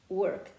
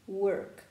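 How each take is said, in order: No difference in how they are said.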